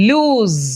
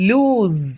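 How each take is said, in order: No difference in how they are said.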